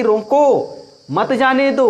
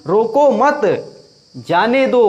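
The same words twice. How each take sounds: First: Raised-pitch रोको, long gap, then मत जाने दो in one piece; pause after रोको. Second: Louder रोको मत in one breath, long gap, then जाने दो; pause after मत. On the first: Teacher recalling the first example for contrast, pause after रोको. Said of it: "पहले था कि". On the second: Teacher contrasting it to mean don't stop, pause after मत. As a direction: hold a long break between मत and जाने दो. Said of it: "अर्थात नहीं रोकना है". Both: Shown as a demonstration.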